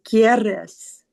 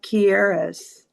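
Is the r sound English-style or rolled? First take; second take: rolled; English. First: The r is rolled with a vibrating tongue. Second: The r is said like an English r. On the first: The speaker calls it right. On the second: The speaker calls it wrong.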